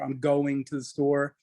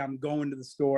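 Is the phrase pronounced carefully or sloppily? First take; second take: carefully; sloppily. First: Every sound is pronounced clearly and separately. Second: The sounds are slurred and run together. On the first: The speaker calls it right. "I say just about every letter" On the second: The speaker calls it wrong. "So I don't say"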